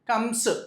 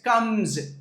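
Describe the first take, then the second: First: The final sound is a hissing s. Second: The final sound is a buzzing z. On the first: The speaker calls it wrong. "కమ్స్ కాదు" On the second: The speaker calls it right. "ఆ ఎస్ని ఎప్పుడు జెడ్ లాగా చదువుతాం"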